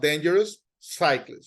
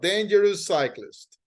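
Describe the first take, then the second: First: The s sound is said separately for each word. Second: The shared s sound is said only once. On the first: The speaker calls it wrong. "not dangerous cyclist. I don't repeat" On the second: The speaker calls it right. "One sound"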